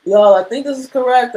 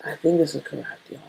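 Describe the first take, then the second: First: Higher, louder, fast call to the viewers; excited announcement. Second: Said in the usual way. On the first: Real, not acted. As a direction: tell everyone proudly you got it right.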